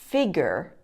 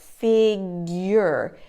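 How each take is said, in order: First: The middle has no Y sound. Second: The middle has a Y sound. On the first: The speaker calls it wrong. "Often students make the mistake and say figure" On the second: The speaker calls it right. "putting a Y sound in there, in the middle of that word, like figure"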